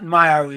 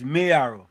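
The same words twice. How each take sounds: First: The first syllable sounds like 'my'. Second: The first syllable sounds like 'may'. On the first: The speaker calls it wrong. "it's not Mayaro" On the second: The speaker calls it right. "it's Mayaro. M A Y is May"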